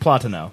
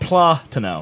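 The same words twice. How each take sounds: First: The syllables run together with no gap. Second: The ta is drawn out, with a gap. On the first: The speaker calls it right. "It's no space. It's just platano" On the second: The speaker calls it wrong. "you're saying the ta too slow"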